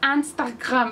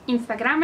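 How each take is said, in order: First: It is said with French pronunciation. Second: It is said with Spanish pronunciation. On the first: "en francés... pronuncian Instagram como Instagram" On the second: "Instagram en español"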